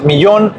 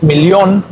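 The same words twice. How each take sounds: First: Said in the usual way. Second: "millón" with the double L sounded as L; German "millón", said mil-lion; German pronunciation. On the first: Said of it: "En español es millón". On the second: Shown as a demonstration. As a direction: pronounce "millón" as German, L not Y. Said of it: "en alemán es millón y la doble L".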